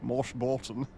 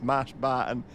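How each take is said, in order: First: The name is said with posh, rounded vowels. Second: The name is said with plain, ordinary vowels. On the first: This is a deliberate joke pronunciation. The speaker calls it wrong. "It just sounds posh, doesn't it?" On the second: This is the real pronunciation. The speaker calls it right. "Of course it's Mash Barton"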